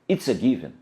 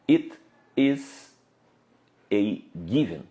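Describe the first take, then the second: First: It is said quickly, with words run together. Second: It is said slowly, with every word full.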